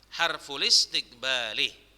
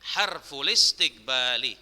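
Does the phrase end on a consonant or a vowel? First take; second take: vowel; vowel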